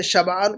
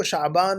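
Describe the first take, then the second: First: شبعان as "shab-'aan"; correct pronunciation. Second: شعبان as "sha'-baan"; mispronunciation. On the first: Teacher contrasts word with student's spelling, correct pronunciation. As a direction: break شبعان after the b. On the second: Teacher quotes what student wrote, mispronunciation. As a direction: break شعبان after "sha". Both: Shown as a demonstration. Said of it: "شبعان کو شعبان لکھا ہوا ہے".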